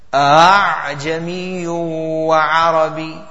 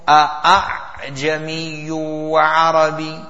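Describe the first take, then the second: First: The second hamza is eased and soft. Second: The second hamza is a full, strong stop. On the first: The speaker calls it right. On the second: The speaker calls it wrong.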